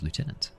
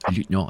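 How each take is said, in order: First: It is pronounced with an English pronunciation. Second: It is pronounced with a French pronunciation.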